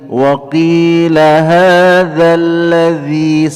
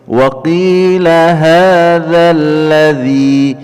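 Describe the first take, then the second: No difference in how they are said.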